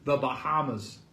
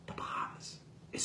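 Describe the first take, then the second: First: Said in the usual way. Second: Whispered The Bahamas, hushed in disbelief. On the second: Real, not acted. Reviewer disbelieving the shark's swim to the Bahamas, whispered. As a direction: breathe The Bahamas out with no voice.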